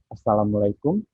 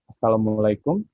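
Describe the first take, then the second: First: It is said in a mid-pitched voice. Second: The same.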